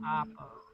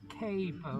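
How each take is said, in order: First: The first vowel is an 'ah' sound, 'cah'. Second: The first vowel is a long A, 'cay'.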